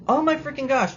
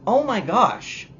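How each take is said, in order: First: Even higher "Oh my freaking gosh", pushed up; more exasperated. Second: High, loud, slow "Oh my gosh"; exasperated. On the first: Reviewer building outrage at Galadriel, climbing exasperation. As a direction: escalate the outrage. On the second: Reviewer outraged by Galadriel's lack of consequences, exasperated. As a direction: groan it in disbelief. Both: Real, not acted.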